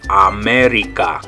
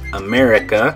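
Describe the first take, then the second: First: Each A is pronounced as an open ah. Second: The A vowels have English vowel sounds. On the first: "those A's are going to say ah ah" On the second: "in English, we would say"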